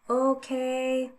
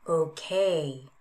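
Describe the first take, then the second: First: The pitch stays level across the word. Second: The pitch falls across the word.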